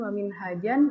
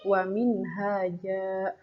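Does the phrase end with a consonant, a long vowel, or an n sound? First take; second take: n sound; long vowel. First: The last word ends with an n sound. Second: The last word ends on a lengthened a vowel. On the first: The speaker calls it wrong. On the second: The speaker calls it right. "dibaca satu baris"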